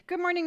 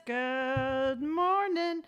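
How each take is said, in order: First: Said in the usual way. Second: Slow, stretched-out sing-song morning; drawn-out greeting. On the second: Shown as a demonstration. Greeting her livestream viewers, slow drawn-out sing-song.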